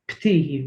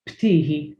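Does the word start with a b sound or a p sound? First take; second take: p sound; p sound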